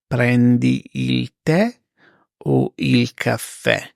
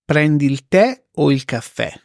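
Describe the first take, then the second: First: Slow, spaced repeat for learners; slow teacher repeat; slow and clear. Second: Said in the usual way. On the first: Shown as a demonstration. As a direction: say it slowly, word by word. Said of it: "slow repeat for learners". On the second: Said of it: "example then slow repeat".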